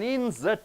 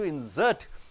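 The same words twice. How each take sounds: First: The stress is on the first syllable. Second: The stress is on the second syllable. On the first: It is a noun. "the nouns you are stressing on the first syllable" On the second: It is a verb. "for the verbs you are stressing on the end syllable"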